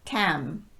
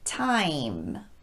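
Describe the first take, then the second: First: The vowel stays an ah without gliding. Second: The vowel starts ah and glides into ee. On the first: The speaker calls it wrong. "So time will sound like tam" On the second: The speaker calls it right. "This vowel needs to start with ah and then quickly move into E"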